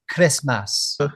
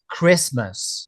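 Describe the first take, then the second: First: It is said in a Welsh accent. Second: It is said in a standard British accent. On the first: "I've heard her say" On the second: "in this one, she says"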